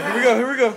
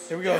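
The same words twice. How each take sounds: First: Higher, louder hype call; building hype; excited. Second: Said in the usual way. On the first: Real, not acted. Fight restarting.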